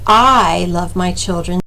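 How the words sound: The stress falls on the word I. Someone else does not love the children. "if the emphasis is on the first word"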